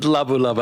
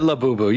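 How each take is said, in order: First: The name is said as labu labu. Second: The name is said as labubu. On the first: The speaker calls it wrong. "I said labu labu" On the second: The speaker calls it right. "I meant labubu"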